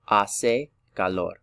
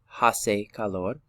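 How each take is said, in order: First: The h at the start is silent. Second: The h at the start is pronounced. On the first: The speaker calls it right. "The H is silent" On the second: The speaker calls it wrong. "This isn't hace calor"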